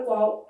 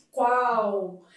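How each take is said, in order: First: Said in the usual way. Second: "qual" drawn out, ending in a U glide; teacher stretching "qual" to show the L sounding like U; final L as U. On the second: Shown as a demonstration. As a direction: say "qual" slowly as "kwau". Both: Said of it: "a depender da leitura da letra L".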